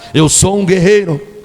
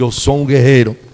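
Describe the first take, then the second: First: It is said louder and more forcefully. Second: It is said at normal loudness.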